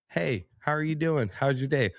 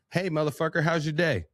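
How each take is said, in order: First: Friendly greeting. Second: Rough greeting. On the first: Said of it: "say something to you in a way". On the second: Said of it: "I'd be like". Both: Shown as a demonstration.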